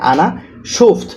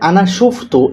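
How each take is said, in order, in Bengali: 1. শেষ শব্দটি একটি ব্যঞ্জনে শেষ হয়। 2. শেষ শব্দটি একটি হ্রস্ব স্বরবর্ণে শেষ হয়।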